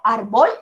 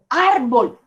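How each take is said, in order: First: The stress is on the second syllable. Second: The stress is on the first syllable. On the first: The speaker calls it wrong. "Yo digo árbol, no" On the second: The speaker calls it right. "digo árbol"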